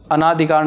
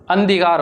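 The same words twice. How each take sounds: First: अनाधिकार with long "naa"; wrong form shown. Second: अंधिकार as "an-dhikaar", no long "naa"; correct form shown. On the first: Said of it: "अनाधिकार ना जी ना". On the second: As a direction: say अंधिकार with a short first part. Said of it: "अंधिकार होता है". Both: Shown as a demonstration.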